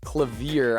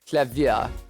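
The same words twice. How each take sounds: First: The name is said with an American accent. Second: The name is said without an American accent.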